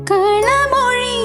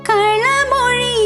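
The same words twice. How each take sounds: No difference in how they are said.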